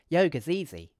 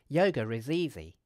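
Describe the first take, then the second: First: Is is contracted, giving four syllables. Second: The words run together with a linking sound. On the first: "we could use a contraction" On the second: "we could use connected speech"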